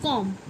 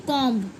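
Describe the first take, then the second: First: कॉम्ब closed on m, no b; correct silent b. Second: कॉम्ब with a popped final b; mispronounced comb. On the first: Teacher insisting only this reading, b silent. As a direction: stop कॉम्ब at the m. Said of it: "सिर्फ कॉम्ब". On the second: Teacher contrasting the wrong reading, b sounded. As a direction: voice the b at the end of कॉम्ब. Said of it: "ना कि कॉम्ब". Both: Shown as a demonstration.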